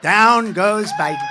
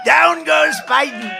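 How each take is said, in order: First: Slow, drawn-out ringside call; slow ringside knockdown call, laughing; mock knockout call. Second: Slow, much higher and louder ringside yell; booming ringside shout of a knockdown; shouted knockout call. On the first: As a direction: call the knockdown like a boxing announcer. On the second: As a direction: roar it like the fight just ended. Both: Shown as a demonstration. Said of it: "I go like this".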